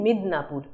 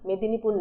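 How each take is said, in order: First: The name is said with an English-leaning pronunciation. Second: The name is said with a plain Bengali pronunciation.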